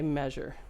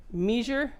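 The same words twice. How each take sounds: First: Said in the usual way. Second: French Canadian "Measure", first vowel as a long ee; French Canadian accent. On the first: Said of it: "any measure with a French Canadian accent". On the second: Retold or imitated. Recalling how a student said it, French Canadian accent on "Measure". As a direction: say "Measure" as "MEE-zhur", imitating French Canadian. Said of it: "How did he say measure?".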